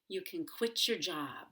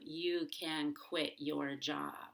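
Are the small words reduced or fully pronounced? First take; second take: reduced; full. First: The small words are reduced and said quickly. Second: The small words are fully pronounced and said slowly.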